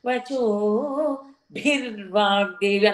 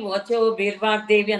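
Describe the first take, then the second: First: The b sound is said with a strong puff of breath. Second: The b sound is said without a puff of breath.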